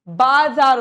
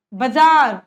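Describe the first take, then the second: First: "बाजार" as baa-zaar, loud long aa; long first vowel. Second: "बाजार" as ba-zaar, short first a; wrong short first vowel. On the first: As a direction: lengthen the first syllable of "बाजार". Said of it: "आ की मात्रा ब के". ("बाजार" में ब पर लंबा आ) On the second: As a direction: shorten the first syllable of "बाजार", stretch the last. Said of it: "बाजार नहीं होता". ("बाजार" को बजार जैसा, पहला अ छोटा) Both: Shown as a demonstration.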